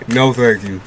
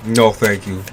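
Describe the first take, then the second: No difference in how they are said.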